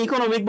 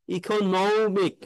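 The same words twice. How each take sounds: First: Said in the usual way. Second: Very slow economic leaning on নমি; stress on নমি. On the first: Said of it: "এভাবে এত flat বলতে হবে না". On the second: Shown as a demonstration. Teacher modelling economic stress for students. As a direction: draw out economic and push নমি. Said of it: "এখানে আপনার stress হবে".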